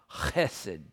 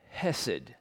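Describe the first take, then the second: First: The word begins with a guttural throat sound. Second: The word begins with a plain h sound. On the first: The speaker calls it right. "it begins with this guttural sound" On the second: The speaker calls it wrong. "or I should get the pronunciation right"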